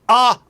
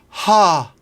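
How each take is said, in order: First: The vowel starts with a hard glottal catch. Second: The vowel starts with a lot of breath. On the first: "I'm not going ah, ah, ah ... getting rid of the glottal plosive" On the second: "with too much breath"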